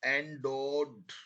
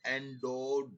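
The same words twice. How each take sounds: First: Endowed drawn out slowly, every sound clear. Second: Said in the usual way. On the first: Shown as a demonstration. Teacher repeating a dictation word slowly for spelling. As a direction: stretch endowed so the spelling can be heard. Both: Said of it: "और धीरे धीरे बोल रहा हूं मैं अब आपको".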